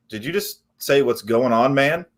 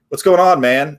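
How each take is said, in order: First: Imitated deadpan customer; unimpressed customer echo. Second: Imitated breezy sales greeting; breezy caller greeting. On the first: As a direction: quote it back, not impressed. Customer echoes the greeting, unimpressed. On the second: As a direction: toss out a chummy cold-call hello. Replays own first cold-call opener.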